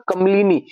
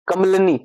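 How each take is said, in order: First: कमलिनी with a short i after l; correct pronunciation. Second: कमलनी with no i after l; mistaken pronunciation. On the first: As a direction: sound the "li" in कमलिनी. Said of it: "न कि कमलनी". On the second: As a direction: drop the middle i, कमलनी. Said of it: "गलत है". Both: Shown as a demonstration.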